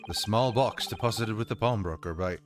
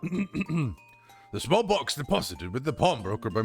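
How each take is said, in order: First: It is read in the speaker's natural voice. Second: It is read in a put-on judge voice. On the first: The speaker calls it wrong. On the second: The speaker calls it right.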